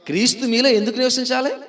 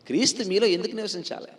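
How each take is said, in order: First: Higher, raised voice pressing for an answer; insistent question. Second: Said in the usual way. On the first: Real, not acted. Preacher prompts congregation to answer why Christ should dwell, insistent. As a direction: press the question on the listeners, pitched up. Asks again after prompting "ఆ?.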